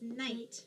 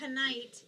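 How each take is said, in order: First: No K sound is pronounced before the n. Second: A K sound is pronounced before the n. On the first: The speaker calls it right. "It's just night" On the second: The speaker calls it wrong. "It's not going to say knight"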